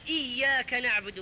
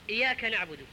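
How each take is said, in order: First: The y sound is doubled and held. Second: The y sound is single and light. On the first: It means we worship you alone. The speaker calls it right. "بالشدة على الياء" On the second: It means we worship the sun's disc. The speaker calls it wrong. "والإياك أيها الإخوة هو قرص الشمس"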